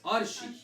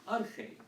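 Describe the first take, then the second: First: The middle consonant is a soft sh sound. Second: The middle consonant is a harsh kh sound. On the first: The speaker calls it wrong. "this is usually in our church, is pronounced arshi" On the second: The speaker calls it right. "it's supposed to be arche"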